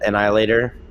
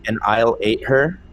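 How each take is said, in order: First: The words are said fast, run together. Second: The words are said at a slower, separate pace.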